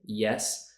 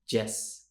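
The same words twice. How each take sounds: First: It starts with a Y sound. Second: It starts with a J sound. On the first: The speaker calls it right. "instead of saying yes" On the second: The speaker calls it wrong. "Spanish speakers will say the J sound for Y letters"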